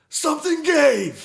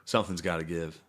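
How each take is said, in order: First: Slow, very high, loud yell; mock outburst. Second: Said in the usual way. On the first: Payoff of the game rant to his friend, a slow high shout. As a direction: explode on it like the dam just broke.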